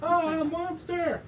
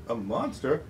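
First: Very high, drawn-out mock terror; alarmed cry. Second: Said in the usual way. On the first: Reader voices character sighting a monster, terrified. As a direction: cry out in storybook fright.

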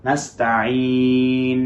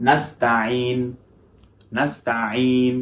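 First: নাস্তাইন slowly, নুন held a medium time, neither short nor overlong; balanced ghunnah. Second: নাস্তাইন with the নুন dropped at once, no nasal hold; too little ghunnah. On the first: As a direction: give নাস্তাইন a moderate nasal hold. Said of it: "সেটা কেমন?". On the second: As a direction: clip the নুন in নাস্তাইন short. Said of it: "বলে ছেড়ে দিচ্ছি". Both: Shown as a demonstration.

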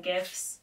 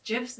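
First: "gifs" with a hard G. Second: "gifs" with a soft G. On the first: Podcaster trying out a word aloud, "gifs" with hard G. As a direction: say "gifs" with g as in gift. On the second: Podcaster querying her own word, "gifs" with soft G. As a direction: say "gifs" starting like jiffy. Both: Shown as a demonstration. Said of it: "Is it gifs or gifs?".

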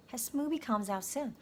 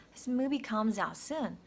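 The two takes are said the same way.

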